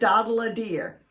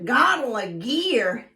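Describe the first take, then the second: First: The b sounds are made like d sounds. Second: The b sounds are made like g sounds. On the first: "substitute the letter D" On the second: "You substitute the G for the B"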